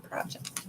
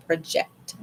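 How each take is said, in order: First: "project" dropped softly as PRAH-ject, first syllable stressed; noun pronunciation. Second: "project" slowly as pruh-JECT, second syllable stressed; verb pronunciation. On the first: Tarot reader ruling out a meaning, soft "project" as PRAH-ject. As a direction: say "project" like the noun, much softer. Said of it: "not project". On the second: Tarot reader picking the card's meaning, "project" as pruh-JECT. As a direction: say "project" as in projecting onto someone. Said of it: "I'm going to say project". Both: Shown as a demonstration.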